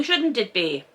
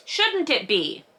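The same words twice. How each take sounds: First: Said in the usual way. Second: "Shouldn't it be?" higher and slower, leaning on "Shouldn't"; emphatic repeat. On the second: Shown as a demonstration. Host presses the trafficking point to listeners, higher and slow.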